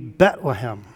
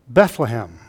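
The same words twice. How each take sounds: First: The h sound is dropped after the t. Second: The h sound is kept after the t. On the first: "would drop the H on the first syllable" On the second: "Most people would say Bethlehem"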